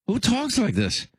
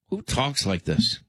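First: Much higher, appalled disbelief; incredulous repeat. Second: Said in the usual way. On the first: Real, not acted. Host to listeners after the tape, appalled and incredulous. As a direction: ask again as if you can't believe it.

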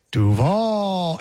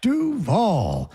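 First: Duval scooped down and back round like a U; imitating U-shaped cadence. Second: Chanted, Duval starting high on DU, then down on VAL; chanted, demonstrate Duval as up, then down; correct chant cadence. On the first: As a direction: swoop through a long VAL in Duval. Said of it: "And he made it just a U". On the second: Shown as a demonstration. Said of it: "It's up and then a quick cut down".

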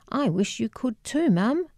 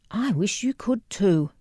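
First: Higher, tearful rising plea; holding back tears, reaching out to mum. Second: A mildly tearful, falling repeat. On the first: Daughter answers her weeping mother, tearful and higher. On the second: Daughter repeats the wish to her mother, gently tearful. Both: A narrator's reading. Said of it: "And now I was crying as well".

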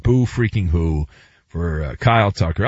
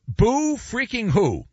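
First: Boo freaking who dropped low; low dismissal. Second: Higher, drawn-out BOO freaking who; mocking pity. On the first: Acted. Second take, low, dismissive repeat. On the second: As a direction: draw out Boo freaking who in mock sympathy. First, mocking take of repeated phrase.

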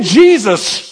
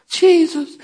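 First: Emphatic raised-voice call; shouted cue. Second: High, mock-timid little utterance. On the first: Shown as a demonstration. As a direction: call it out for the congregation to shout back. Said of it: "Can you shout". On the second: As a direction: say it like a half-hearted worshiper, high-pitched. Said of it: "they weren't just".

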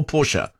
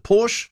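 First: Porsche said as two syllables, "POR-shuh". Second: Porsche said as one syllable, "porsh". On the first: Host offering the other way to say the car name, Porsche as "POR-shuh". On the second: Host weighing how to say the car name, Porsche as "porsh". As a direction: drop the final vowel of Porsche: "porsh". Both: Shown as a demonstration. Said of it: "pronunciation. Is it Porsche or Porsche?".

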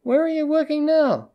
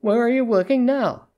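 First: Much higher, insistent repeat. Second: High-pitched, pointed question; raised pitch on a probing question. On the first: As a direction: pitch it right up and drop on NOW. Repeats the question after "What?. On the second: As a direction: ask it pointedly, pitched up, falling at the end. Pointed question, meant to be overheard. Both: A narrator's reading.

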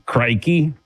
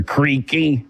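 First: "Crikey" with a long i, like CRY-key. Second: "Creaky" with a long ee, like CREE-key. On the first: Host names coworker's nickname, saying Crikey the Aussie way. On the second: Host gives the coworker's mangled nickname, CREE-key. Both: Shown as a demonstration. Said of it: "So his nickname is Crikey or Creaky".

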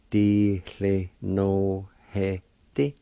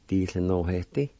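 First: Slow demo. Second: Said in the usual way. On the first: Shown as a demonstration. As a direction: Di cle no he di said very slowly. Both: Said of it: "It's pronounced like this".

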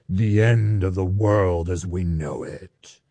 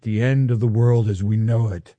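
First: Low, slow voice of doom; ominous doom voice. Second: Said in the usual way. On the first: Shown as a demonstration. Preacher mocking end-times dread for the congregation, ominous doom voice. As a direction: intone it slowly and deep, like impending doom. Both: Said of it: "say it with an ominous doom voice".

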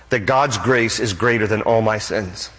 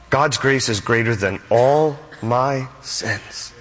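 First: Said in the usual way. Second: Slow, with "all", "my", "sins" set apart; emphatic slow repeat. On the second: Real, not acted. Preacher repeating God's grace for emphasis, slow and weighty. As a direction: linger on "all my sins", word by word.

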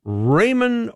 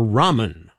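First: "ramen" with a long A, RAY-men; RAY-men pronunciation. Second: "ramen" with an open AH, RAH-men; RAH-men pronunciation. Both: Shown as a demonstration. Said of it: "I always forget, is it ramen or ramen".

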